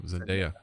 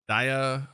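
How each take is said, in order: First: "Zendaya" said zen-DAY-uh. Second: "Zendaya" said zen-DIE-uh. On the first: Shown as a demonstration. Co-host correcting himself after debate, "Zendaya" as zen-DAY-uh. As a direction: say "Zendaya" with an "ay" in the middle. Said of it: "Day is in there". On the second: Real, not acted. Co-host listing actors, "Zendaya" mispronounced as zen-DIE-uh. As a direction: say "Zendaya" with a long "eye" in the middle. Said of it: "I think it's Zendaya".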